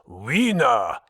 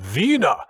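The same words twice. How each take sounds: First: It begins with a W sound, English style. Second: It begins with a V sound, German style. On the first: The name sounds like the word for a hot dog. The speaker calls it wrong. "not Wiener" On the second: The name is linked to the city Vienna. The speaker calls it right. "My name is pronounced Wiener, ... Like the city"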